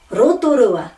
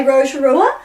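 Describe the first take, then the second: First: Rotorua joined smoothly with tapped r and pure or-like o; Māori Rotorua, ro-to-ru-a, falling at the end; correct Māori pronunciation. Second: Rotorua run together with English r and long English o; Anglicised Rotorua, quick and rising; common mispronunciation. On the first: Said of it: "but this is". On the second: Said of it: "So most people say". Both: Shown as a demonstration.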